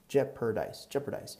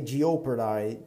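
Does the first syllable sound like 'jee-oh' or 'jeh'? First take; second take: jeh; jee-oh. First: The first syllable is a short 'jeh' sound. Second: The first syllable sounds like 'jee-oh'. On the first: The speaker calls it right. "We don't pronounce that O there" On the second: The speaker calls it wrong. "So you wouldn't say jeopardize"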